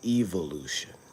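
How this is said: It is said with a British pronunciation. "in England, it's pronounced evolution"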